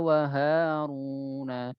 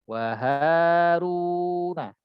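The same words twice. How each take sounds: First: The word is read with a nasal twang. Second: The word is read without a nasal twang. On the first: The speaker calls it wrong. "masih ada sedikit ada hidung ya" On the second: The speaker calls it right.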